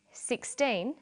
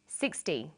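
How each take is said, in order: First: Put-on SIXTEEN lifted, with a long teen and clear N; minimal-pair demo. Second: SIXTY dropping away on a short -ty; minimal-pair demo. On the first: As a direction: say SIXTEEN carefully, holding the teen. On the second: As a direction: say SIXTY low and careful, first syllable strong. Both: Shown as a demonstration. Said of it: "Listen to these pairs of numbers".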